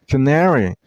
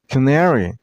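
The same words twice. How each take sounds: No difference in how they are said.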